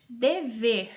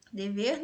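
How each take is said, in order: First: Dever sounded out, weight on final "ver"; syllable by syllable. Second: Said in the usual way. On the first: Shown as a demonstration. Teacher testing where the tonic falls, Dever with strong final syllable. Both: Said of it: "Você vai pronunciar aí devagarzinho".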